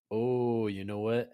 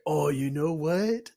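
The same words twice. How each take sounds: First: Said in the usual way. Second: Loud, high, drawn-out excited realization; sudden bright idea. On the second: Acted. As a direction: announce a brainwave, rising at the end. Ulrich has a sudden idea.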